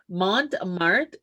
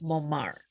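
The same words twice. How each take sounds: First: The name is pronounced the plain English way. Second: The name is pronounced the French way. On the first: "I'm going to say it as English as English can be" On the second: "It might be French. It might be like Montmartre"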